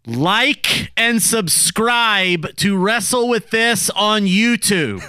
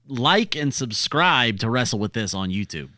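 First: It is said loudly. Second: It is said at normal volume.

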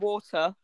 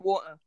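First: The middle T is clearly pronounced. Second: The middle T is dropped. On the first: The speaker calls it right. "Instead of water" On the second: The speaker calls it wrong. "they miss out the T"

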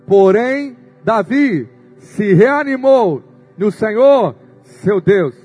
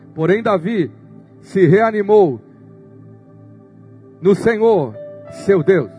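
First: It is read in a loud, booming voice. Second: It is read in a normal voice.

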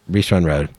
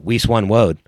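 First: It is said in his normal voice. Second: It is said in an Elmer Fudd voice.

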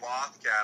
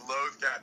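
First: The first vowel differs from the one in 'loath'. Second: The first vowel sounds like the one in 'loath'. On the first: It is a personal, casual preference. "I say loth cat. I prefer loth cat" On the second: It matches the name of the related wolves. "the appropriate pronunciation is loth cat because they refer to loath wolves"

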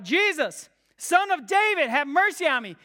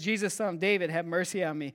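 First: It is a louder, raw, desperate scream. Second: It is a loud but ordinary attention-getting shout. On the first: The caller is overwhelmed by uncontrollable emotion. "He shouts even louder" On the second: The caller simply wants to get attention. "it's this loud, ordinary shout to attract attention"

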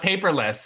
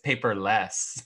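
First: The stress falls on the paper part. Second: The stress falls on the less part. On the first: There is no paper at all. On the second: There is only a little less paper.

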